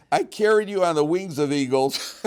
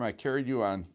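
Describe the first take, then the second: First: Louder and higher, declaiming the verse; bold declaim. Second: Said in the usual way. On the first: Shown as a demonstration. Teacher forcing himself through the verse for the class, loud and bold. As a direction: belt it out like a brave proclamation. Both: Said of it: "I'm gonna man up and do it".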